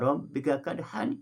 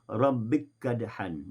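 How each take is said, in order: First: Both k sounds are pronounced separately with a vowel. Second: The two k sounds merge into one doubled k. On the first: "dibaca secara tahqiq" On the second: "dibaca dengan idgham"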